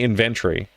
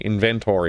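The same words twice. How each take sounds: First: The 'o' vowel is dropped. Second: The 'o' vowel is clearly pronounced. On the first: The speaker calls it right. "It's definitely inventory" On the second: The speaker calls it wrong. "inventory with an O"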